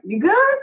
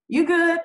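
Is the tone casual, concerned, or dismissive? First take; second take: casual; dismissive. First: It sounds like a casual, light question. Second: It sounds like a flat, dismissive brush-off. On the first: It asks whether someone is okay. "Like, are you okay?" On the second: It declines an offer. "I'm okay. I don't need that"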